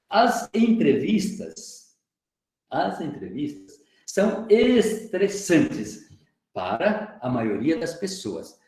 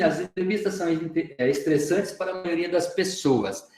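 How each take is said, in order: First: It pauses and repeats the opening words. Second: It runs straight through without any pause. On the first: "quis colocar aí uma, uma segurada, aí uma vírgula" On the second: "Eu poderia fazer assim"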